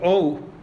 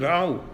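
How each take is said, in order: First: The vowel is said as o. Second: The vowel is said as au. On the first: "Lithuanians pronounce it o" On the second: "The Germans pronounce it au"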